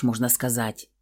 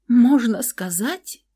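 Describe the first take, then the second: First: Said in the usual way. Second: High, slow, rising disbelief; taken aback. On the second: Acted. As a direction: echo it stunned. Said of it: "опешила я".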